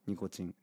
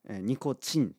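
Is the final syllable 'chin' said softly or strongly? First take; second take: softly; strongly. First: The final syllable is said without extra force. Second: The final syllable is said with strong force. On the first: The speaker calls it right. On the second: The speaker calls it wrong.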